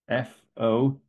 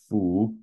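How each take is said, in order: First: The syllable ends in an 'o' vowel. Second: The syllable ends in a 'u' vowel. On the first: It means the Buddha. "so as in FO in the second tone" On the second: It is part of a literary word for 'as if'. "the other possible pronunciation is fu"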